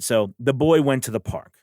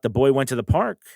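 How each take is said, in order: First: The voice falls at the end. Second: The voice rises at the end.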